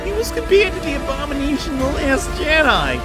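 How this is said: It is read with grave, dramatic weight.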